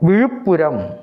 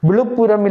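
First: The middle consonant is a retroflex zh sound. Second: The middle consonant is a plain l sound. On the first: The speaker calls it right. "விழு மகர ழா போட்டு" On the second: The speaker calls it wrong. "விழுப்புரம் இல்லை"

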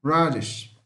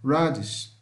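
Both takes have the same delivery.

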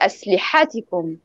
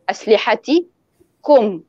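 First: The stress falls on the ha sound. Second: The stress falls on the ta sound. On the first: The speaker calls it wrong. "ضغط الطالب على حرف الحاء بدل من يضغط على حرف التاء" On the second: The speaker calls it right. "يضغط الطالب على الحرف الذي قبل الضمير"

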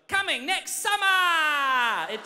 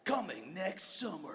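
First: It is said in an Australian accent. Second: It is said in an American trailer voice. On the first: It does not sound epic. "if we hired one of us to do it, it'd be like" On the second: It sounds epic. "we have Americans saying that"

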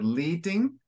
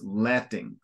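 First: The first vowel is a long ee sound. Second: The first vowel is a short eh sound. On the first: The speaker calls it wrong. "you said leeting" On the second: The speaker calls it right. "So closed E, letting"

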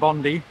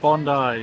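First: It is said with an American pronunciation. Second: It is said with the local pronunciation. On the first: The speaker calls it wrong. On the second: The speaker calls it right.

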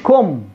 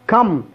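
First: The vowel is a rounded 'oo' sound. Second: The vowel is a short open 'a' sound. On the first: The speaker calls it wrong. "فبتقولوش كم" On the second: The speaker calls it right. "كأنها فتحة ... لكن هي فتحة كم"

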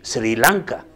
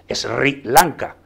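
First: The s and r are joined together. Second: The s and r are split apart. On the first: The speaker calls it right. "En vez de decir Sri Lanka, que no es tan complicado decir Sri" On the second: The speaker calls it wrong. "aún seguimos diciendo Sri Lanka"

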